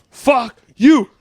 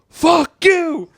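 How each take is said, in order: First: Higher, louder fuck you; a father cursing his son a second time; dad cursing louder. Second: A father finally screaming at his son; shout. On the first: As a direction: snap it back harder. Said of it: "Oh, mine? It's real easy". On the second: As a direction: blow up at the kid. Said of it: "turn the volume down on that". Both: Retold or imitated.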